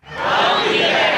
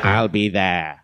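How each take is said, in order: First: Very high, slow cultist echo; crowd echo. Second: Said in the usual way. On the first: Shown as a demonstration. Crowd echoing the pledge line, very high and slow. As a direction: squeak it back like an eager follower. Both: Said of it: "recite the Pledge of Evil Allegiance".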